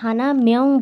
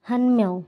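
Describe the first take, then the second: First: The number word has two syllables, hana. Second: The number word is shortened to one syllable, han. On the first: The speaker calls it wrong. "আমরা কিন্তু হানা মেয়ং বলবো না" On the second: The speaker calls it right. "আমরা বলবো"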